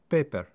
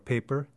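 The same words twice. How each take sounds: First: The first vowel is short and pure. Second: The first vowel glides like a diphthong.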